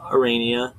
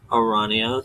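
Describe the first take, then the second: First: Arania as a-RAY-nia; ay pronunciation. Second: Arania as a-RAH-nia; ah pronunciation. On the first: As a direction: middle of Arania like "rain". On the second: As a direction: middle of Arania as open "ah". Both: Shown as a demonstration. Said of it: "which one I actually prefer".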